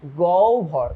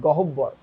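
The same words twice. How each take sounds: First: গহ্বর said as "goubbho", the breathy bh, no separate h; the right গহ্বর, one smooth "goubbho"; correct pronunciation. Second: গহ্বর said as "gohobbor", the b doubled, no h-breath; the mistaken গহ্বর, split into go-ho-bbor; wrong pronunciation. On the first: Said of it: "এটার উচ্চারণ কিন্তু গহ্বর". (সঠিক উচ্চারণ: গহ্বর, "গউব্ভ") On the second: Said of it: "not গহ্বর". (ভুল উচ্চারণ: গহ্বর, "গোহোব্বর" করে) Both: Shown as a demonstration.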